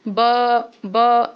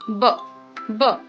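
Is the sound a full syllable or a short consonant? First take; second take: full syllable; short consonant. First: It is a full syllable with a vowel. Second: It is a short consonant without a vowel. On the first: The speaker calls it wrong. "बी को हम पूरा ब नहीं पढ़ेंगे, ऐसे नहीं पढ़ेंगे" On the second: The speaker calls it right. "इसे पढ़ना है ब ब। इसका हाफ साउंड निकालना है"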